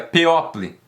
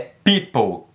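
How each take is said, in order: First: A separate O vowel is sounded in the middle. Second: No O vowel is sounded in the middle. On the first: The speaker calls it wrong. "Você não pronuncia people" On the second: The speaker calls it right. "é people. Esse O não é pronunciado"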